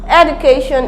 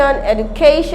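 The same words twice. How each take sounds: First: The stress is not on the third syllable. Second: The stress is on the third syllable. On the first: The speaker calls it wrong. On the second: The speaker calls it right.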